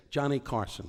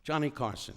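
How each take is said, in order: First: Rising showbiz intro of Johnny Carson; a hint of an announcer. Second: Second showbiz intro of Johnny Carson; a hint of an announcer. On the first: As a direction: lightly announce the name like a host. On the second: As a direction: lightly announce the name again like a host. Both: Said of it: "I used to say".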